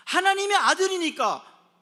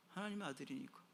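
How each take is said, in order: First: Loud, high proclamation; shouted refrain. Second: Hushed refrain. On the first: Preacher proclaiming why they are privileged, shouted with conviction. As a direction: burst out with full conviction. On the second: Preacher repeating the golden-spoon reason to listeners, hushed. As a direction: say it quietly to the listeners. Same refrain, soft then shouted. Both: Shown as a demonstration.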